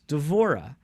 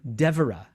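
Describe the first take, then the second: First: The stress falls on a later syllable. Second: The stress falls on the first syllable. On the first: The speaker calls it right. "That's uh, the Hebrew" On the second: The speaker calls it wrong. "because of the tendency in English to stress the first syllable"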